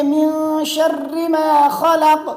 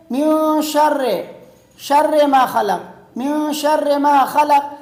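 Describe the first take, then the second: First: "شر" ending in clear "-ri", slowly chanted; correct short i. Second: "شر" ending in "-re" instead of "-ri"; wrong vowel. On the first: Teacher corrects the vowel, slow tajweed with short i. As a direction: recite "من شر ما خلق" with "sharri" and long held sounds. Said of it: "یہ شر نہیں ہے بلکہ". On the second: Teacher imitates friends' wrong reading, e for short i. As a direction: say "من شر ما خلق" with an e after "شر". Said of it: "کس طرح پڑھتے ہیں". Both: Shown as a demonstration.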